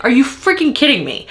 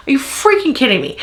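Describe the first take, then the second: First: First take plain disbelief; exasperated. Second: Faster repeat of freaking kidding me; exasperated faster. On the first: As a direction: stress freaking, falling at the end. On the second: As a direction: rush the repeat, more exasperated. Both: Real, not acted. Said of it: "I'm so mad right now".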